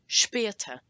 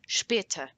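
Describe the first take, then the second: First: The first vowel sounds like 'eh' from the umlaut. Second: The same.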